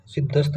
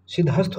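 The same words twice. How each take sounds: First: सिद्धस्त with no separate ह; सिद्धस्त run together as siddh-ast; wrong pronunciation. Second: सिद्धहस्त with the ह sounded; सिद्धहस्त as two parts, siddh plus hast; correct pronunciation. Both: Shown as a demonstration. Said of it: "सिद्धस्त नहीं होता".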